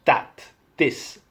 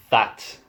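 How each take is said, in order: First: "that" and "this" with a d sound; "that, this" as "dat, dis"; Irish TH. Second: "that" with a voiced th; tongue between teeth on "that"; standard TH. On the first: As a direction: harden the th of "that" to d. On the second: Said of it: "Not that". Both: Shown as a demonstration.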